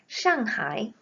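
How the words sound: It is said with the Mandarin reading, Shanghai. "이렇게 발음합니다"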